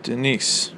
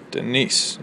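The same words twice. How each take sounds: First: Said in the usual way. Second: Denise with the weight on niece; Denise, da-DUM, stress on niece. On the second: Shown as a demonstration. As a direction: lean into the second syllable of Denise. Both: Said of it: "You hear how the stress is on niece".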